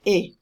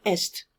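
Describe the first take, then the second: First: "A" as a short pure é; French é, silent S. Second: "est" with s and t both heard; sounded S. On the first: Teacher corrects est for students, silent S. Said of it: "and it's pronounced". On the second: Teacher imitates students' mistake, sounded S. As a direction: say "est" like English "best" without b. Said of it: "will pronounce the S here". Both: Shown as a demonstration.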